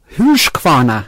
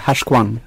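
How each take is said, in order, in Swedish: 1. Namnet sägs helt och slutar på a. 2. Namnet kortas och den sista a:n faller bort. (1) "Han pratade om Husqvarna" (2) "Men han sa det i dialekt, ja. Utan tänder. Så det blev Husqvarn"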